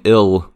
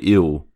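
First: The final L sound is clearly pronounced. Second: The final L sound is dropped or vocalized. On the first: "Instead of saying" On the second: "they don't pronounce their L's at the end of words"

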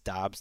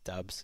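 First: The name is said with an open 'ah' vowel. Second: The name is said with a short 'uh' vowel. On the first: The speaker calls it right. "it's Dobbs, not Dubs, and you guys have been saying it right" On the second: The speaker calls it wrong. "Apparently, I was saying it wrong"

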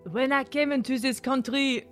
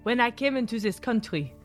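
First: It is said in a French accent. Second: It is said in a blend of British accents. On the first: "No, that's still French" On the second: "I'm literally trying to put them all together into one"

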